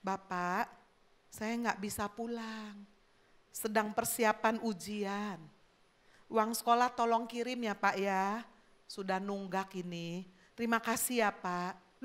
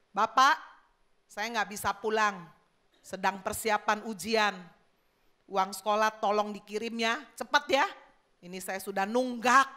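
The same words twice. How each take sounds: First: Softly read, tender letter; gentle and soft. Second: Coarse, demanding letter reading; rough builder reading a letter aloud; rough, high tone. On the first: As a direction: read it gently, like a polite plea. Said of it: "Yang satu dengan lemah lembut". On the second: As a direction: read it out brusquely, like a rude demand. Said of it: "yang kasar, yang tinggi". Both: Acted.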